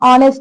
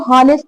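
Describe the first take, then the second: First: The word begins directly with a vowel sound. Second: The word begins with an audible h sound. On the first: The speaker calls it right. "But इसको हम ऑनेस्ट बोलेंगे" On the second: The speaker calls it wrong. "गलत जो है pronunciation करते हैं, इसको हॉनेस्ट बोलते हैं"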